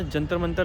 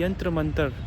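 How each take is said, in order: First: The first word starts with a J sound. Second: The first word starts with a Y sound. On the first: This is the popular, altered form of the name. The speaker calls it wrong. "लोगों ने मिस pronounce करके रख दिया है" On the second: This is the original form of the name. The speaker calls it right. "यंत्र मंतर इसका असली नाम था"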